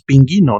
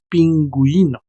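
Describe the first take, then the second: First: The u after the g is silent. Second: The u after the g is pronounced. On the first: The speaker calls it wrong. "No decimos pingüino" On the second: The speaker calls it right. "decimos pingüino"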